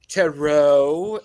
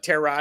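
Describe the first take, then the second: First: It is said in a fancy, posh-sounding way. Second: It is said in a plain, everyday way. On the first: The speaker sounds sophisticated. "sound fancy schmancy" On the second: The speaker sounds ordinary. "but tarot is fine"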